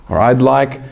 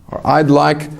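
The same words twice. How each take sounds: The two takes are said the same way.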